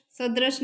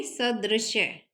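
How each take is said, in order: First: सदृश ending on a bare "sh"; wrong form SADRISH. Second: सदृश्य slowly, ending in "shya"; correct SADRISHYA. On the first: Teacher showing the wrong form, सदृश ending in "sh". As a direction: stop सदृश without any y. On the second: Teacher correcting the word, सदृश्य slow with "shya". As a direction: split सदृश्य and sound the final y. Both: Shown as a demonstration. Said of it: "सदृश नहीं".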